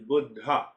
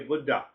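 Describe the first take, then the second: First: The word has the original Sanskrit pronunciation. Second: The word has the common English pronunciation. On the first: It means awakened. The speaker calls it right. "The actual pronunciation is Buddha" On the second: It means old guy. The speaker calls it wrong. "in this country, we say Buddha"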